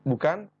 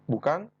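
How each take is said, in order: The two takes are said the same way.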